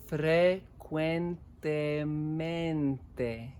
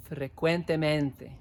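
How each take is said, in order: First: Frecuentemente drawn out syllable by syllable; very slow. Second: Said in the usual way. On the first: Shown as a demonstration. Teacher to class, very slow model word. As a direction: stretch Frecuentemente slowly for the class.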